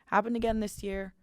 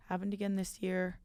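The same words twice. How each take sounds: First: Said in the usual way. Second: Much softer rueful echo; soft sigh of resignation; quiet repeat. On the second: Real, not acted.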